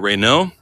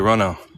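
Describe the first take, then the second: First: It is said with an American pronunciation. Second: It is said with a British pronunciation. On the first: "I would have said this is a Renault" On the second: "but here they say Renault"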